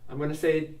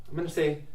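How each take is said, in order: The two takes are said the same way.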